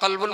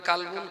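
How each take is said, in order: First: The word starts with a deep, throaty q. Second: The word starts with a plain, light k. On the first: Heart. The speaker calls it right. "বড় কাফ" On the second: A different, wrong meaning. The speaker calls it wrong. "বড় কাপ না দিয়ে"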